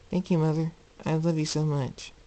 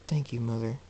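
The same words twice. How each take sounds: First: Put-on high, childlike grateful voice; little colt. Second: Said in the usual way. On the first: Colt hugging and thanking his mother, childlike. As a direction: lift it into a small child's voice. Retake in the colt's voice.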